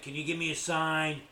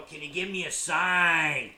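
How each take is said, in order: First: Said in the usual way. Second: Loud, slow, hammed-up demand; mock demanding question. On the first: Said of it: "if you said". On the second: Shown as a demonstration. Mocking a bad question to spirits, loud and slow. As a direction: bellow it like a clumsy ghost hunter.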